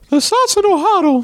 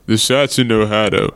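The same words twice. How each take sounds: First: It is said in a Mickey Mouse voice. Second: It is said in a non-Mickey put-on voice.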